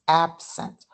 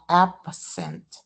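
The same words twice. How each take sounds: First: The b is held with closed lips, unreleased. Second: The b is released with a puff of air. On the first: The speaker calls it right. "We leave the our our lips closed and we don't release the air" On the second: The speaker calls it wrong. "it's not absent"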